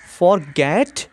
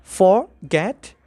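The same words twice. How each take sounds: First: Said in the usual way. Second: "forget" in two parts, "for", pause, "get"; split into syllables. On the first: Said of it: "Examples are". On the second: Shown as a demonstration. Teacher shows students the two syllables, saying "forget" split as for, get. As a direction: break "forget" apart after "for". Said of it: "two syllables".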